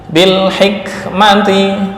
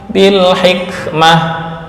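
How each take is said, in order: First: The word ends with t and a vowel. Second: The word ends with a soft h sound. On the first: The reading continues without stopping. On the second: The reader stops on this word.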